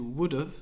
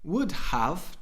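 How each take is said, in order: First: The word 'have' is reduced to 'of'. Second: The word 'have' is said in full. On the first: "to would have" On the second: "Would have to"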